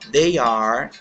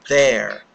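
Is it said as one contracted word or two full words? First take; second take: two words; contracted. First: It is said as two separate full words. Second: It is said as one short contracted word.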